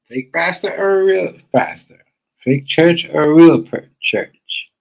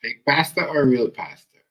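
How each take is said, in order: First: Slow, higher, much louder jeer; escalating slow, loud mockery; louder mocking taunt. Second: Slow, loud, drawn-out taunt; slow, loud jeer at the pastor; mocking question. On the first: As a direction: belt the question out mockingly. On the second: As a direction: stretch each word like a jeer. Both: Real, not acted. Commentator mocks the pastor.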